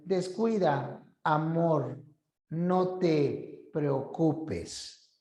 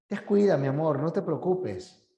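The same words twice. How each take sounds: First: "Descuida," then "amor," then "no te preocupes" dragged very slowly; slow ominous version with long breaks; broken up with pauses. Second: Said in the usual way. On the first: Shown as a demonstration. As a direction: let every word fall apart in its own group. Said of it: "a que te digan". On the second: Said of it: "no es lo mismo que te digan".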